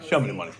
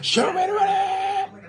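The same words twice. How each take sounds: First: It is said flatly, without conviction. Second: It is said with passion and conviction.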